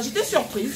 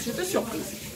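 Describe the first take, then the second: First: Said in the usual way. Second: Higher, softer repeat of her surprise; surprised echo. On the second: Real, not acted. Telling viewers about the boyfriend's message, quietly amazed. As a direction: breathe it out again, still amazed.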